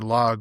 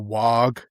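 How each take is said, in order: First: The word begins with an L sound. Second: The word begins with a W sound. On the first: "I'm trying to say log" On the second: "my pr- pronunciations of L's were W's"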